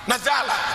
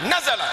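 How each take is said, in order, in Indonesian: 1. Vokal kedua sedikit dipanjangkan. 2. Huruf pertama ditekan, vokal kedua pendek. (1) "muncul mat sedikit, salah"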